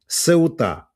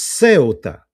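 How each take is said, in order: First: The stress is on the last syllable. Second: The stress is on the first syllable. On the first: "ударение на последнюю букву «Сеута». И я тупо повторяю «Сеута»" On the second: "ударение на букву «Е», то есть «Сеута»"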